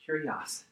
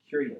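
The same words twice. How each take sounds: First: "Kurios" said as KOO-ree-os in Greek. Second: Said in the usual way. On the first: Shown as a demonstration. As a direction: stress the first syllable, "Kurios", Greek style. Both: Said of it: "In the Greek".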